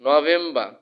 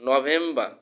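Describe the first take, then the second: The two takes are said the same way.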